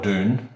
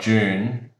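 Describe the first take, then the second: First: It is said with an American pronunciation. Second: It is said with an English pronunciation.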